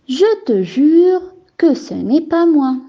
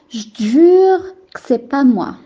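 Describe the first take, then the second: First: Every syllable is said fully, including the ne. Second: The e sounds and the ne are dropped. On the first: This is everyday standard speech. "C'est une phrase au niveau courant" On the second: This is informal, casual speech. "On remarque la chute de quelques lettres, telles que le E, de je, de te, de que"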